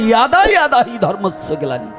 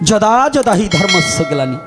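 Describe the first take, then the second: First: The first word begins with a Y sound. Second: The first word begins with a J sound. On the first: This is the newer way of saying it. "নতুন ভার্সনের উচ্চারণ" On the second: This is how older people used to say it. "আগের বয়স্ক লোকরা কি উচ্চারণ করতেন? যদা যদা হি না।"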